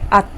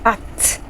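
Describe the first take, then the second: First: The final t is cut off, unreleased. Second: The final t is fully released. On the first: The speaker calls it right. "you say at, you don't fully pronounce the sound" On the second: The speaker calls it wrong. "you don't say at"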